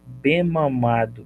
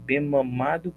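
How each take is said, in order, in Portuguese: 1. O som do m se liga direto na palavra seguinte. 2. O som do m se liga direto na palavra seguinte.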